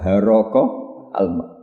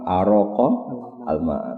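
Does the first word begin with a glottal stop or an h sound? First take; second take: h sound; glottal stop. First: The first word begins with an h sound. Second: The first word begins with a glottal stop. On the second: "Hamzah sama Ba"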